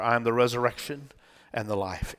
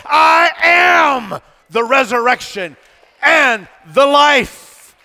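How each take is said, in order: First: Low, soft reading of the verse; quiet scripture reading. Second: High, loud, drawn-out I AM; thundered declaration. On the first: Preacher reading Jesus' words to Martha, quiet scripture reading. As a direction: read it gently, well below preaching pitch. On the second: Preacher correcting what Jesus said, thundered declaration. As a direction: shout it slowly, stretching each key word. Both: Acted.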